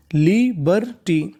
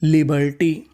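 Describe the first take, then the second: First: लिबर्टी slowly split into three syllables. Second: Said in the usual way. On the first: Shown as a demonstration. Teacher shows how the full word is built, syllable-by-syllable. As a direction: draw out each syllable of लिबर्टी. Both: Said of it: "तो पूरी meaning".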